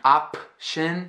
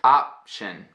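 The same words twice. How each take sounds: First: The p sound is released openly. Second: The p sound is closed off, not released. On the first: The speaker calls it wrong. "I'm not saying" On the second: The speaker calls it right. "this happens in syllables too"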